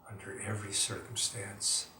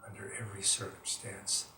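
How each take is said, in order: No difference in how they are said.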